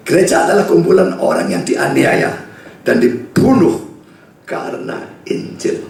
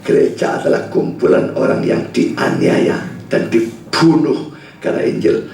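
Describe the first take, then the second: First: Said in the usual way. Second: "Gereja adalah kumpulan orang yang dianiaya dan dibunuh karena Injil" drawn out slowly and hushed, each word weighed; slow, weighty restatement. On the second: Shown as a demonstration. Preacher repeating the definition of church to the congregation, slow and hushed. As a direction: lay the definition down slowly and gravely. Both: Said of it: "ini definisi dari gereja".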